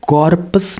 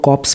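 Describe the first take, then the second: First: Every letter of the word is sounded out. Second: Some letters of the word are left silent. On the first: The speaker calls it wrong. "इसको कॉर्पस नहीं बोलते" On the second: The speaker calls it right. "इसमें आर silent होता है, इसको कॉर्प्स बोलते हैं"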